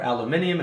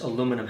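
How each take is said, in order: First: "aluminium" said the British way, with an extra i before -um; British pronunciation. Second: Said in the usual way. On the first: Shown as a demonstration. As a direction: say "aluminium" in five syllables, al-yoo-MIN-ee-um. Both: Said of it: "or aluminium if you're British".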